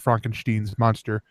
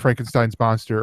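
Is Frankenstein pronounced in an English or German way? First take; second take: German; English. First: Frankenstein is pronounced the German way. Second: Frankenstein is pronounced the usual English way.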